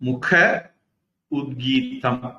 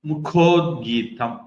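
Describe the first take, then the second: First: The two words are said separately, a then u. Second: The words merge into one with an o sound. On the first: "ஆவும் ஊவும் சேருது" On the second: "ஆவும் ஊவும் சேர்ந்தா ஓவா மாறும்"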